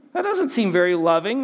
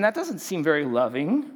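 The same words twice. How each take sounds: First: Second take pushed harder, 'doesnt' leaned on with a rising objection; mock objection, repeated louder. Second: Said in the usual way. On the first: Preacher voicing the culture's objection, repeated with louder mock indignation. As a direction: press the doubt harder, as if scandalised. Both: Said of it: "you might say, "Hold on".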